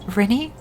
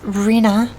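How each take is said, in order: First: The name is said as Rini, rising. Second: The name is said as Rena, settled. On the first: The speaker calls it wrong. "Nine here specifically looks at it and goes" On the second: The speaker calls it right. "It's pronounced Rena"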